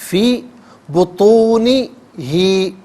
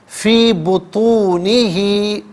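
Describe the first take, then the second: Both takes have the same delivery.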